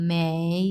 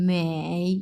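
First: মেই drawn out slowly, dipping then rising; slow V-shaped tone. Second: মেই dipping low then rising in a V shape; V-shaped tone. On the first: Teacher repeating মেই slowly so students copy the dip. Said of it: "মেই এইভাবে হবে". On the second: Teacher demonstrating the dipping third tone on মেই. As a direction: bend মেই down and back up. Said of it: "V shape উচ্চারণ হবে". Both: Shown as a demonstration.

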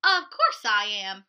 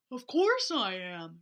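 First: Loud, proud Sebastian; proud reply. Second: Lower, slow bear reply. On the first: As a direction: declare it with pride. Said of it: "replied Sebastian". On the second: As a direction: rumble it out like a bear. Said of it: "replied the bear". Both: Acted.

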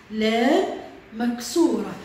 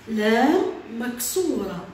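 The two takes are said the same way.

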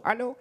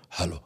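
First: "Hallo." lilting up in a sweet Indian accent; sing-song Indian-accented "Hallo.". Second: "Hallo." dropped very low and hard, menacing; angry hallo. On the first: Showing how Indians can't say hello angrily, sweet Indian lilt. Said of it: "die können das Wort Hallo nicht böse betonen". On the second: Demonstrating to the audience how to say hello angrily. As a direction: growl out "Hallo." like a threat. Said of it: "Böse". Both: Shown as a demonstration.

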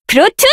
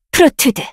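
First: Pitched up, rising end; sharp higher call. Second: Said in the usual way. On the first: Acted. Caster calling the spell sharply, higher. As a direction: snap it out higher.

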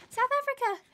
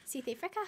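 First: Excited. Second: A mild attempt at a South African accent on South Africa. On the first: Real, not acted. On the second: Shown as a demonstration. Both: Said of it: "My accent is not particularly good".

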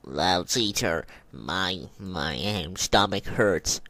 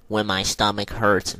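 First: Low, slow fake-sick moan. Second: Said in the usual way. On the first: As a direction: play sick with a deep slow voice. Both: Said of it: "my voice changes to Lawrence".

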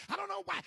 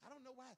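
First: High, loud "I don't know why" shouted in protest; shouted complaint. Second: Said in the usual way. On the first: Acted. Church member shouting at God, loud and high. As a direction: yell "don't" in exasperation.

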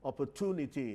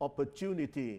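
First: "opportunity" with "too" in the third syllable; American-style "opportunity", hard T before the "oo"; American pronunciation. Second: "opportunity" with "chew" in the third syllable; British-style "opportunity", T softened to a CH sound; British pronunciation. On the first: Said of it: "คนอเมริกันจะออกเสียง". (ออกเสียง "opportunity" แบบอเมริกัน ใช้เสียง ท) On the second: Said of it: "คนอังกฤษจะออกเสียงว่า". (ออกเสียง "opportunity" แบบอังกฤษ เป็นเสียง จ "จูนิตี") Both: Shown as a demonstration.

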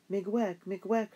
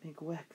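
First: Raised, bright Ojibwe thanks, pitch lifting at the end; heartfelt thanks. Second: Miigwech barely voiced, much softer; a weak, worn-out Miigwech; exhausted girl echoing her parents' thanks, faint and soft; faint whisper-like thanks. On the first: Acted. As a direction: call out Miigwech gratefully, higher and louder. Parents thanking their rescuers. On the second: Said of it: "but it came out a whisper".

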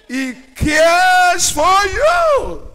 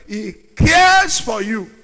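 First: High, slow, shouted "He cares for you"; preaching shout. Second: Loud and firm, stress on "cares"; emphatic repeat. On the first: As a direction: cry it out to the whole church. Preacher's climax line. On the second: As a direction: drive home "cares". Preacher's repeat. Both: Acted.

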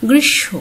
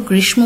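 First: গ্রীষ্ম said "grishsho", ম silent and শ doubled; গ্রীষ্ম as "grishsho", a held sh and no m; correct pronunciation. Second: গ্রীষ্ম said as "grishmo", with the ম sounded; গ্রীষ্ম pronounced "grishmo", m voiced as learners wrongly do; common wrong pronunciation. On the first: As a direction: model the right form: গ্রীষ্ম with no m sound. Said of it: "আসলে কি হবে?". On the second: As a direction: demo the mistake: গ্রীষ্ম with a clear m before the final o. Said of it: "এটি অনেকে ভুল উচ্চারণ করো". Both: Shown as a demonstration.

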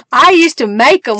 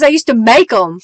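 First: Chuckling as she repeats it; amused laughing echo. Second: Said in the usual way. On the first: Real, not acted. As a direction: say it again through a laugh. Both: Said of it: "repeats it laughing".

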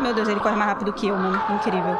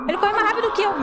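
First: Said in the usual way. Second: Very high, loud shrieked complaint; panicked shriek. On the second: Real, not acted. Being chased, repeats line.

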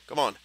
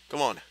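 No difference in how they are said.

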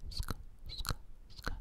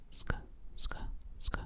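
The two takes are said the same way.

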